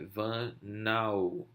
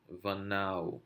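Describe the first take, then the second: First: Vanau drawn out slowly, with the weight on the final syllable nau; stress on the last syllable. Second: Said in the usual way. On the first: Shown as a demonstration. Teacher showing students where vanau is stressed, slow and drawn out. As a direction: stretch vanau out and lean on the nau. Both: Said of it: "onde está a ênfase na hora da pronúncia".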